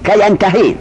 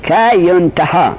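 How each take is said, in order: First: ینتحی as "yan-ta-hii"; active form vowels. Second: ینتحا slowly as "yun-ta-haa"; passive form vowels. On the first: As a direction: open ینتحی on "yan" and end on a long ii. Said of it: "معلوم را میگه". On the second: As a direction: open ینتحا on "yun" and end on a long aa. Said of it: "که زمانی که مجهولش کنی". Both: Shown as a demonstration.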